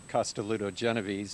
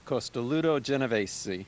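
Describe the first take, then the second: First: The name is said with English pronunciation. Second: The name is said with Italian pronunciation. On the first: "if you want an English pronunciation" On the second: "I love to say the name on this one"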